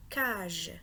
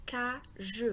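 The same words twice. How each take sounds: First: Said in the usual way. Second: CAGE split slowly into CA... JE; découpage en syllabes. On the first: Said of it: "Le mot cage". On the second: Shown as a demonstration. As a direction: sound out CAGE as two beats, ending on a full JE. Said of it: "Le mot cage est composé de deux syllabes". (CAGE dit en deux syllabes, ca-je)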